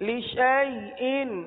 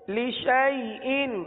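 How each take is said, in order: The two takes are said the same way.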